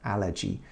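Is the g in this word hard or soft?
soft. It is said the English way, with a soft g.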